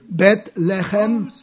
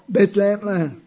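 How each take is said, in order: First: The name is said in the fuller Hebrew form. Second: The name is said in the shortened Italian form. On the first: The speaker calls it right. "la parola ebraica" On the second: The speaker calls it wrong. "addolora semplicemente quanto pronunciamo Betlem"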